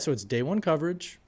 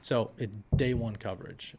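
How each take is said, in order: First: The pitch rises at the end. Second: The pitch falls at the end. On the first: The speaker sounds uncertain. The speaker calls it wrong. "that doesn't sound as professional or as certain" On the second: The speaker sounds certain and professional. The speaker calls it right. "saying things like"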